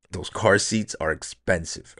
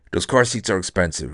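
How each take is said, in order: First: "Those car seats are expensive" said slower and softer, leaning on "car"; slow emphatic repeat. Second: Said in the usual way. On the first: Shown as a demonstration. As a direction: drive the point home slowly, stressing "car".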